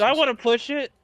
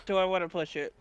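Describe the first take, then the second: First: Higher, livelier "Do I wanna push it?"; questioning aloud. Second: Musing to oneself. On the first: Player weighs a reroll, raised questioning tone. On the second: Player weighs a reroll, quiet musing. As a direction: think it over under your voice. Player repeats question to self. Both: Real, not acted.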